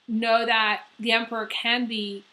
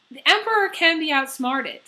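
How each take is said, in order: First: Said in the usual way. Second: Emperor punched higher and louder; emphatic "the Emperor can be outsmarted"; stress on Emperor. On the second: Shown as a demonstration. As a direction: restart and hit the word Emperor hard.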